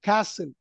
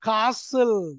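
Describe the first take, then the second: First: The word is said with an American accent. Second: The word is said with a British accent. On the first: "Americans எப்படி படிப்பாங்க" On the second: "British people காசில்"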